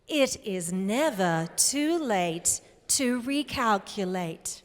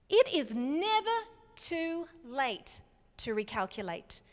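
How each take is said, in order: First: Lightly voiced satnav, slow and measured; GPS voice. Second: Said in the usual way. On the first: Shown as a demonstration. Speaker leading the audience in their best GPS voice, lightly done. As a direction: say it slowly like a GPS prompt. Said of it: "your very best G P S voice". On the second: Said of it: "say that with your very best".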